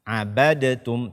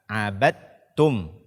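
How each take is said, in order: First: The d is released with an echo. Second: The d merges straight into the t. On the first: The speaker calls it wrong. "Tidak lagi kita baca abadatum" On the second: The speaker calls it right. "dia dimasukkan atau idgham ke dalam ta"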